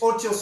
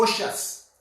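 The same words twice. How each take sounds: First: "otious" said with a clear T in the middle; pronounced with a T. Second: "osious" said as OH-shus, with SH in the middle; pronounced with SH. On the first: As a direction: say "otious" as OH-tee-us, keeping the T. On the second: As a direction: soften the middle of "osious" to a SH sound. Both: Shown as a demonstration. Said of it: "I don't know if it's otious or osious".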